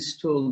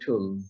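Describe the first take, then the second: First: The word starts with an s sound. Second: The word starts with a t sound. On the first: It names feces. "when it is pronounced like stool, then it is feces" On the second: It names a seat or the layering method. "এই স্টুলটাকে উচ্চারণ হবে টুল"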